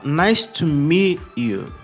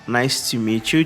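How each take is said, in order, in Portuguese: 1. O T é cortado, deixando uma pequena pausa. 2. O T se liga suavemente à próxima palavra. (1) "o T cortado, mas existe uma pausa ali no lugar do T" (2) "a segunda forma"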